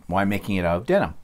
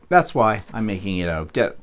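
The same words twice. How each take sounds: First: Said in the usual way. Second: Hiccuping mid-sentence; hiccups. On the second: Real, not acted. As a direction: cut off by a hiccup.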